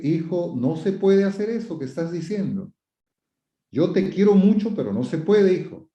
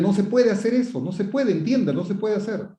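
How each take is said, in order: First: Gentle but firm parental correction; firm without shouting. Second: Higher-pitched, insistent parental scolding; stern, forceful scolding. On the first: Parent telling a son he's loved but can't, gently firm. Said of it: "no es necesario gritar". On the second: Parent ordering a child to understand, stern and insistent. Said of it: "Le estoy hablando fuerte". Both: Shown as a demonstration.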